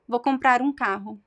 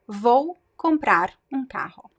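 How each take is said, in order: First: Comprar runs straight into um without a break. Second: Every sound is pronounced fully and separately. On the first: "connect the words comprar um" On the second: "this is the standard pronunciation"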